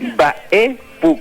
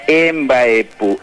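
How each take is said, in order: First: It starts directly with a nasal mb burst. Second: It starts with an added e vowel sound. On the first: The speaker calls it right. "con una explosión de la M B" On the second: The speaker calls it wrong. "no es Embaepú"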